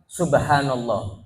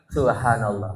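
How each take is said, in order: First: The lips move freely and every sound is clear. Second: The lips are held, so the lip sounds are muffled.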